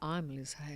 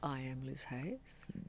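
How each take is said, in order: First: I am is contracted into one syllable. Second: I am is said as two full words. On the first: The speaker calls it right. "You say I'm Liz Hayes" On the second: The speaker calls it wrong. "you don't say I am Liz Hayes"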